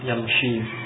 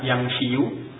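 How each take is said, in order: First: The word ends on 'shi' with no extra vowel. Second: The word ends with an extra final 'yu' syllable. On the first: This is the form actually used in speech. "mereka mengucapkan dengan sukun yamshi" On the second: This is the original underlying form of the word. "sulit mengucapkan yamshiyu"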